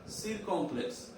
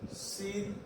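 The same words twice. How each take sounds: First: Said in the usual way. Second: "Circumflex" in softly separated syllables; quiet, piece-by-piece spelling-out. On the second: Shown as a demonstration. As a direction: dictate "Circumflex" with long gaps. Teacher splits term for copying.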